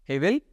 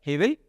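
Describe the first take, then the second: Both takes have the same delivery.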